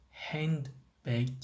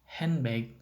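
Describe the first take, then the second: First: "handbag" with the d sounded; full pronunciation. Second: "handbag" with n straight into b; normal-speech pronunciation. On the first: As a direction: say "handbag" in two parts, hand-bag. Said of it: "the pronunciation handbag or". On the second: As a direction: drop the d in "handbag", like "henbeg". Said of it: "the pronunciation". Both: Shown as a demonstration.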